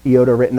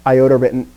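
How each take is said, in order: First: Iota as ee-OH-tuh; Greek-style pronunciation. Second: Iota as eye-OH-tuh; English pronunciation. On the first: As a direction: open iota with an "ee" sound. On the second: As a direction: open Iota with an "eye" sound. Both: Shown as a demonstration. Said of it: "It doesn't change the pronunciation".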